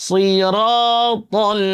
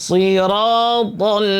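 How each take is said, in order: No difference in how they are said.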